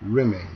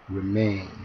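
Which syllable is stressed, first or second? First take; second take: first; second. First: The stress is on the first syllable. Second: The stress is on the second syllable. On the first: The speaker calls it wrong. "억양을 바꿔서 하면" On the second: The speaker calls it right. "뒤 음절에 강세가 있는 경우가"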